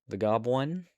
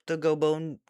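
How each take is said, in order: First: The name begins with the sound 'gob'. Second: The name begins with the sound 'go'. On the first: The speaker calls it right. "It's Gob. Okay. I I apologize" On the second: The speaker calls it wrong. "I hope I'm saying that right"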